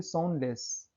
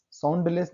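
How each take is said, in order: First: साउंडलेस with no d, "soun-less"; silent d. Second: साउंडलेस with the d sounded, "sound-less"; pronounced d. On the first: Teacher correcting for students, silent d in साउंडलेस. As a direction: go from n straight to l in साउंडलेस. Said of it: "only साउंडलेस". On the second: Teacher showing students the mistake, d sounded in साउंडलेस. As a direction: voice the d before l in साउंडलेस. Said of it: "साउंडलेस नहीं". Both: Shown as a demonstration.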